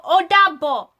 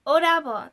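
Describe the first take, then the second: First: "Odabo" louder, auntie's way; auntie's correction. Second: Put-on "Odabo" in her American-accented Yoruba; her own Odabo. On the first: Retold or imitated. Auntie correcting the niece's goodbye, "Odabo" with native tones. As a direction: say "Odabo" as a Yoruba auntie would, proper tones. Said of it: "Some auntie will go". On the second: Niece repeating the goodbye, "Odabo" in her own accent. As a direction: say "Odabo" the way she naturally does. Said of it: "and I'm like".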